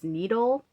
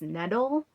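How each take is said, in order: First: The first vowel is a long E. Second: The first vowel is not a long E. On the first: The accent mark calls for this. The speaker calls it right. "that accent mark right there makes it a long E" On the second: Other people say it this way. The speaker calls it wrong. "I've been hearing on FlossTube people pronouncing this needle"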